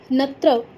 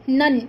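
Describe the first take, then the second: First: It is said as 'tra' with no nasal. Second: It is said as a nasal 'nya' sound. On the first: The speaker calls it wrong. "याचा उच्चार बरेच जण त्र असा करतात" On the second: The speaker calls it right. "च चा अनुनासिक त्र नसून नन आहे"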